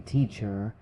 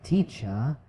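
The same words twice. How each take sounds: First: "teacher" with the final R pronounced; sounded final R. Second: "teacher" ending in "uh", no R; British non-rhotic "teacher", final R silent. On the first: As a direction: end "teacher" on an audible R. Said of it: "So instead of saying". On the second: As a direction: drop the R at the end of "teacher". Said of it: "often much softer or even silent". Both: Shown as a demonstration.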